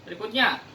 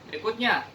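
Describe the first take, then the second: Both takes have the same delivery.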